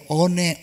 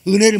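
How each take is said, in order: First: The first syllable is said as 'eon'. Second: The first syllable is said as 'eun'. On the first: The speaker calls it wrong. "언혜 이렇게 얘기해" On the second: The speaker calls it right. "은혜를 못해"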